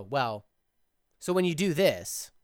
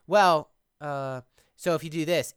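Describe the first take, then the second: First: "Well," then a clear pause before "so when you do this"; composed speaker pausing instead of saying uh; deliberate pause. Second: Said in the usual way. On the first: Shown as a demonstration. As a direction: drop the filler and pause after "Well". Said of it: "it's better if you go". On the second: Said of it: "Instead of".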